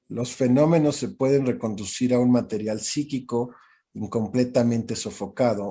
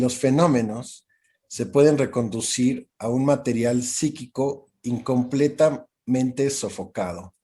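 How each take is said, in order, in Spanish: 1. La oración se lee a un ritmo más rápido. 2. La oración se lee a un ritmo más lento.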